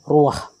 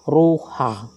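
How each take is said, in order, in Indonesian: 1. Vokal a datang sebelum bunyi h. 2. Vokal a datang setelah bunyi h. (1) "tapi ruah" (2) "bukan ruha"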